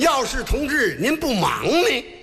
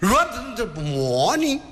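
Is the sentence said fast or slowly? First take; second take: slowly; fast. First: It is said slowly and clearly. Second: It is said fast and slurred.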